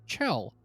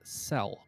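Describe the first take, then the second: First: The name begins with a ch sound. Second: The name begins with an s sound. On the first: This is how a speaker with a lisp says it. "pronounced uh, a S sound from an S or a C uh, kind of uh, sound as a ch" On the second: This is the name her parents gave her. "Chell's parents actually called her Cell"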